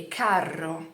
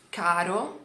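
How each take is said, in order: First: CARRO with a long Italian trilled rr; double R. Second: CARO with one short tapped r; single R. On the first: Teacher showing learners the word pair, double r. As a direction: roll and hold the rr in CARRO. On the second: Teacher showing learners the word pair, single r. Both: Shown as a demonstration. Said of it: "com a letra dupla".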